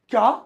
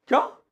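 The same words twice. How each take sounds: First: It is said with strong surprise. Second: It is said with strong surprise.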